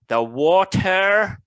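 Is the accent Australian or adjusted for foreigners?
adjusted. It is said in an adjusted, less Australian accent.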